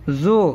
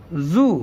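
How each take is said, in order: First: "زو" with an open o vowel; letter name zoe. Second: "زو" with a long oo vowel; zoo pronunciation. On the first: Teacher naming the letter itself, zoe pronunciation. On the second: Teacher showing the letter with pesh, zoo pronunciation. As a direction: draw out "زو" as zoo. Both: Shown as a demonstration. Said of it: "تو ہوگا".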